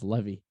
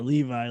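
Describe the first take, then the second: First: The name does not sound like the jeans brand. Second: The name sounds like the jeans brand. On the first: This is how the boy says his own name. The speaker calls it right. "he'd be like, ah, it's Levy" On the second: The name is being mispronounced to tease. The speaker calls it wrong. "like the jeans"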